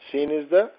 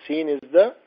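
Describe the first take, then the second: No difference in how they are said.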